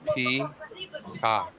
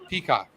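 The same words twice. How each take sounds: First: The word is said slowly and carefully. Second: The word is said at normal quick speed.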